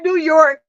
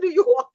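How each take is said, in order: First: It is said in a neutral, general accent. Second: It is said in a New York accent. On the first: This is how most people say it. "Everybody else said New York" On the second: This shows the speaker is from up north. "the same way we say it out here. You can tell she's from up north"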